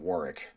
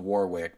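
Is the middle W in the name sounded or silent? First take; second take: silent; sounded. First: The middle W is silent. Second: The middle W is clearly pronounced. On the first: This is how the person himself says the name. "but he pronounces it Warwick" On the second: This is how the name is written. "my friend's name is spelled Warwick"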